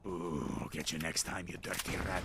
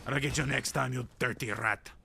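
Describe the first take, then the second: First: Low, soft villain voice; playful menace, way down low; mock villain threat. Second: Put-on villain voice at normal volume; playful menace, spoken out; mock villain threat. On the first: Mock threat to escaped rat. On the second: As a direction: repeat the threat in a lightly hammed-up voice.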